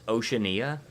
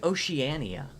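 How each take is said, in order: First: It starts with the plain word 'ocean'. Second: Its start does not sound like 'ocean'. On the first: "it should be pronounced Oceania? Because, like, it's Ocean I A" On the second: "I get that that's how you pronounce it"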